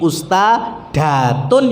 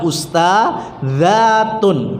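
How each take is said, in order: First: The consonant after usta is a plain d sound. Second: The consonant after usta is a z-like sound. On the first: The speaker calls it wrong. "Nggak bisa kita jadi ustadatun ya nggak bener ya" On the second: The speaker calls it right. "ustadzatun ya dibaca ustadzatun"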